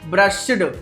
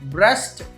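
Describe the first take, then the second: First: The ending is pronounced with a d sound. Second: The ending is pronounced with a t sound. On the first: The speaker calls it wrong. "అలా కాదు" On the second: The speaker calls it right. "టా చెప్పాలి"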